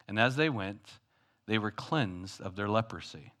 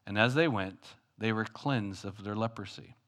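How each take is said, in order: Both takes have the same delivery.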